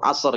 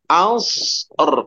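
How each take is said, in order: First: The final consonants are rubbed together into one. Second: The final consonants are kept slightly separate. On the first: The speaker calls it wrong. "jangan terlalu jelas ngegeseknya jadi asor" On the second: The speaker calls it right. "Tapi dipisahkan khus or, als or"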